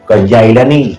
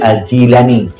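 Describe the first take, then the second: First: The first vowel of the name is 'ai'. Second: The first vowel of the name is 'i'. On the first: The speaker calls it wrong. "yang kaya melihat salah kenan" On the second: The speaker calls it right. "padahal Jilan"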